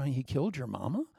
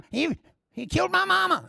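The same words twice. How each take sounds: First: Lower, softer incredulous query; skeptical questioning. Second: Very high, hammed-up squeal; mock hysterical accuser. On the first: Acted. Listener checking the accuser's wild claim, low and skeptical. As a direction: question it quietly, in doubt. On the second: Accuser inventing a crime to the crowd, high mock hysteria.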